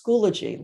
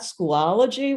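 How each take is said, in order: First: The name is said with three syllables. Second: The name is said with four syllables. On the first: The speaker calls it right. "It's Schoology, like biology" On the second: The speaker calls it wrong. "it's not Schoolology, where I've, I've heard it said that way"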